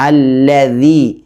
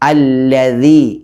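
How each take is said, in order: First: The middle consonant is a 'dh' sound with the tongue on the teeth. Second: The middle consonant is a 'dh' sound with the tongue on the teeth.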